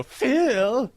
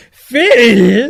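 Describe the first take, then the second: First: Much higher rising call of Phil; mimicking how Phil says it. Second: Loud, high rising call of Phil; mock echo of the call. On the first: Teasing her friend by copying his call, high rising. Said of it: "the way you go". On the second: Friend loudly echoing her imitation of his own call. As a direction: belt out Phil as a big rising question.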